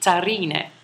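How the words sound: The name is said with Italian pronunciation. "In Italian, it would be Zarine"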